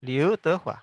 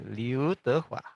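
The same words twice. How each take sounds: First: Liu Tehua said louder and higher at normal pace; crisp name demo. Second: Liu Tehua drawn out very slowly, syllable by syllable; slow name demo. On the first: Teacher to students, repeating Liu Tehua louder at normal speed. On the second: Teacher to students, modelling the name Liu Tehua very slowly. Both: Shown as a demonstration. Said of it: "Contoh seperti ini".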